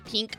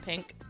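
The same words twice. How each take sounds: First: The word has a Midwestern vowel sound. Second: The word has a standard vowel sound. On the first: "I say pink" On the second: "instead of pink"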